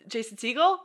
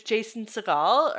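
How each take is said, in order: First: "Segel" said SEE-gul, stress on first syllable. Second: "Segel" said suh-GAHL, stress on second syllable. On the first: Correcting a guess in an actor roll call, "Segel" said SEE-gul. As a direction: offer "Segel" as SEE-gul, rising question. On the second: Unsure in an actor roll call, "Segel" said suh-GAHL. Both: Shown as a demonstration. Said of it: "or S-, Jason Segel?".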